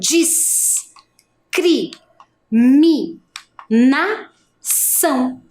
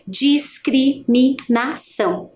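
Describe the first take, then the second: First: The word is broken into separate syllables. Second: The word is said smoothly without breaks.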